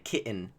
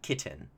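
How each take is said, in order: First: The middle T is dropped, a glottal catch instead. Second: The middle T is clearly pronounced as T.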